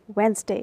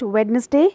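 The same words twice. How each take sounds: First: The D sound is silent in the middle. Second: The D sound is pronounced in the middle. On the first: The speaker calls it right. "D is silent, so the exact pronunciation is Wednesday" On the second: The speaker calls it wrong. "People usually say it Wednesday"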